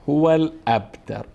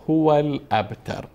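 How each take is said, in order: No difference in how they are said.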